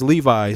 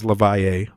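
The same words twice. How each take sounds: First: Levi said as LEE-vye, two syllables; the name Levi. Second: Levaye said as luh-VYE-ay, three syllables; the name Levaye. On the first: Explaining his name to podcast listeners, plain Levi. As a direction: give the familiar reading, Levi, like the jeans. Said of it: "Some of you guys know me as Levaye". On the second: Correcting listeners on his name, Levaye in three syllables. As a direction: stretch out Levaye with stress in the middle. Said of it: "You guys know me as Levi". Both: Shown as a demonstration.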